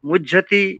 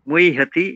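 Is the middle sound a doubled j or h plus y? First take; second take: doubled j; h plus y. First: The middle is pronounced as a doubled j. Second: The middle is pronounced as h followed by y. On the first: The speaker calls it wrong. "মুজ্জাতি বা অন্যরকম উচ্চারণ করলে কিন্তু সেটা ঠিক হবে না" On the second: The speaker calls it right. "মুই হাতি যেভাবে বললেন দুজন সঠিক"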